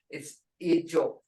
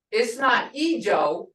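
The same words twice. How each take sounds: First: Ijo said the right Muskogee way; correct pronunciation. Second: Ijo said slow, the way she has heard it; slow, wrong Ijo; wrong pronunciation. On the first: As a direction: Ijo the proper way. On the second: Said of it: "It's not Ijo, which I've heard before". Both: Shown as a demonstration.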